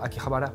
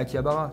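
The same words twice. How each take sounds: First: The name is said with a Japanese accent. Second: The name is said with a French accent. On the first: "Tu vas pas dire je suis allé à" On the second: "Tu vas dire euh, ouais, je suis allé à"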